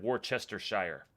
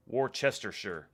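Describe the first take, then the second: First: Worcestershire ending in a full "shire", rhyming with fire; old mistaken pronunciation. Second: Worcestershire ending in a short "sher"; careful correct pronunciation. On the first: Admitting the old way, Worcestershire ending in "shyer". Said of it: "I would have said". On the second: Streamer meeting a viewer's challenge, careful Worcestershire ending in "sher". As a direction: say Worcestershire slowly, last syllable "sher". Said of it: "Try to pronounce". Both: Shown as a demonstration.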